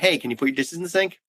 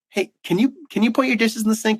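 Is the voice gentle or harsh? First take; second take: harsh; gentle. First: The voice sounds harsher and less gentle. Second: The voice sounds gentler and softer.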